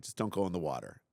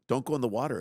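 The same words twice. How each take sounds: First: Said in the usual way. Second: Louder pleading repeat of Don't go in the water; anxious parent pleading louder at the water hazard; urgent repeat. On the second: Retold or imitated. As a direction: beg her, a bit louder, to keep off the water. Urging daughter at water hole.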